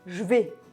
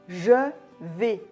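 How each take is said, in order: First: The vowel of je is dropped. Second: The vowel of je is fully pronounced.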